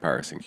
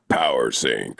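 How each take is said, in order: First: It is said with flat, plain pitch. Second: It is said with lively, varied pitch. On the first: The speaker calls it wrong. "you can't just say power sync like power sync" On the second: The speaker calls it right. "like a little bit of extra inflection in there"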